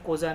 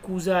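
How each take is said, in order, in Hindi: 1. पहला स्वर 'oh' जैसा बोला जाता है। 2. पहला स्वर 'oo' जैसा बोला जाता है। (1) "कोजा नहीं" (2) "ये भी कूजा है"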